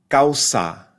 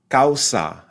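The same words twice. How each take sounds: No difference in how they are said.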